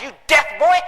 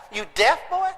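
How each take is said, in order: First: Louder, rising bark of an angry father; angry dad. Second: Put-on puzzled kid echo. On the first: Retold or imitated. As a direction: snap it at the boy. Dad yells, son echoes. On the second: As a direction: repeat it back, bewildered. Son puzzled echo of dad.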